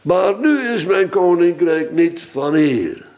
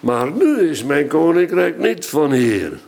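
First: The stress falls on the word hier. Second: The stress falls on the word nu. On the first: The kingdom belongs to another place. "Waar is nu mijn koninkrijk dan wel?" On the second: The kingdom belongs to another time. "Wanneer dan wel? Het is maar waar je de klemtoon legt"

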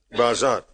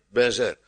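First: The vowels sound like a. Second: The vowels sound like e. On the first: "Maar in het Oude Testament heet dat bazar" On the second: "men vindt dan dat wij het moeten uitspreken met bezer"

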